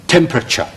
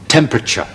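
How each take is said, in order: The two takes are said the same way.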